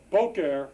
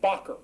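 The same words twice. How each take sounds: First: Said in the usual way. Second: BOKER with a short open O, like "bocker"; short-O Boker, stressed on the first syllable; original short O. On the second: Shown as a demonstration. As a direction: say Boker as "BOCK-er", pitched higher. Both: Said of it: "originally a short O".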